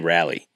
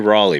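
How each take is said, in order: First: The name is said with a Northern pronunciation. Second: The name is said with a local Southern pronunciation. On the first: This is how a newcomer from the North says it. The speaker calls it wrong. "I used to say Raleigh" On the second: This is how local people say it. The speaker calls it right. "You have to say Raleigh"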